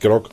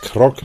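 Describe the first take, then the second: First: The name begins with a voiced G sound. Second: The name begins with a voiceless K sound. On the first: The speaker calls it wrong. "nicht Grog. Oder siehst du da vielleicht ein G in seinem Namen?" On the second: The speaker calls it right. "Krog, nicht Grog"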